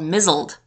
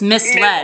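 First: It sounds like one word rhyming with drizzled. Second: It sounds like mis plus led, two clear parts. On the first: The word is taken for a different, unknown word. The speaker calls it wrong. "I thought there was a word in the English language called mizzled" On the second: The word is read as the past of mislead. The speaker calls it right. "but it's misled"

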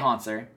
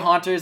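First: The name is said with a 'ts' sound. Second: The name is said without a 'ts' sound. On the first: The speaker calls it right. "than it is to say" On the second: The speaker calls it wrong. "I'm sorry that I mispronounce it, but it's easier to say"

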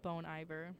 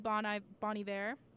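First: The name is pronounced with English sounds. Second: The name is pronounced with French sounds. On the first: "a lot of people would know him as" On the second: "It's technically French, so I like to say"

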